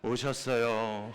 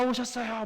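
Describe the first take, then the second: First: It is said quietly with a sigh, sounding let down. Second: It is said loudly with a high, excited pitch. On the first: The child is disappointed because nothing was brought. "한숨을 지으면서 오셨어요. 예, 이렇게 작은 소리를 내면서" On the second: The child is happy because a gift was brought. "목소리 톤이 올라갑니다. 그러면서 아빠 오셨어요 막 그러면서 큰 소리로 환영을 하죠"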